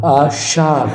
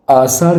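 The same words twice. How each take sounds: First: आषाढ़ with a strong sh; correct sh. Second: आषाढ़ with a plain s; wrong s for sh. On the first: Teacher gives the correct आषाढ़, emphatic sh. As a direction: say आषाढ़ as "aashaar". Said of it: "षटकोण वाला सा होगा". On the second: Teacher rejects this आषाढ़, s in place of sh. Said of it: "आषाढ़ नहीं होता". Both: Shown as a demonstration.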